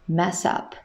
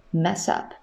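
No difference in how they are said.

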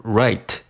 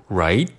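First: "right" slowly, with a clear t burst at the end; released T. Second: "right" stopped with no t burst; unreleased T. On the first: Teacher showing the form to avoid, "right" with released t. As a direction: sound out the final t of "right". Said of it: "也需要失去爆破，不读". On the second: Teacher showing the preferred form, "right" with unreleased t. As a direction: hold back the final t of "right". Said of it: "也需要失去爆破". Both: Shown as a demonstration.

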